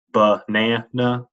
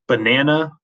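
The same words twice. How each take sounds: First: "banana" drawn out slowly, weight on the middle NA; stress on NA. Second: Said in the usual way. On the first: Shown as a demonstration. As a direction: stretch "banana" out to show the stressed NA. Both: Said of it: "the stress is on the na".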